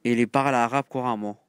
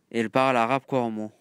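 No difference in how they are said.

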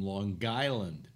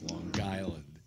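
First: "Long Island" run together with a hard g, "Long Guyland" in a New York accent. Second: "Long Island" said slowly, each word set apart, no g sound; slow careful Long Island. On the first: Showing friends the local Long Island pronunciation, "Long Island" as "Long Guyland". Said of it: "That's how you pronounce it". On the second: Telling the folks how to say it, "Long Island" slow and careful. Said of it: "That's how you pronounce it, folks". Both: Shown as a demonstration.

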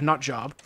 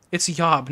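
First: Said in the usual way. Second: "yob" said with a y sound where j belongs; pronounced yob. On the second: Shown as a demonstration. Streamer shows the woman's word "yob" with a y sound. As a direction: say "yob", y not j. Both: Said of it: "It's yob, not job".

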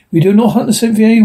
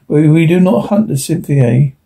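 First: Mocking echo. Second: Said in the usual way. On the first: A narrator's reading. Duncan mocks the native's refusal.

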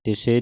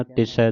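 First: ਤਿਸੇ with a closed "e" ending; mispronunciation demo. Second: ਤਿਸੈ with an open "ai" ending; correct pronunciation. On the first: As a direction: say ਤਿਸੇ as "ti-say", narrow final vowel. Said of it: "ਤਿਸੇ ਨਹੀਂ ਕਹਿਣਾ". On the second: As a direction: say ਤਿਸੈ as "ti-sai", wide final vowel. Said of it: "ਤਿਸੈ ਦਲਾਵਾਂ ਦੇ ਨਾਲ". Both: Shown as a demonstration.

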